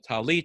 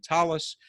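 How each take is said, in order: First: The word ends in a t sound. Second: The word ends in an s sound. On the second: "rather than talis"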